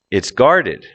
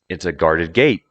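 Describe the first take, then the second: First: "guarded" peaks on its first syllable; stress on GUARDED. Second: "gate" carries the peak, "guarded" kept low; stress on GATE. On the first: Teacher reading examples for learners, stress on "guarded". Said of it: "Listen to where the emphasis". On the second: Teacher reading examples for learners, stress on "gate". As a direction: leave "guarded" unstressed, lift "gate". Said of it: "adjective is no longer emphasized". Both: Shown as a demonstration.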